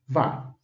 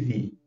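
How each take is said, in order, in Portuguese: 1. A sílaba termina com som de ah. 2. A sílaba termina com som de ee. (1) "dá som de vá" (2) "não dá som de vi"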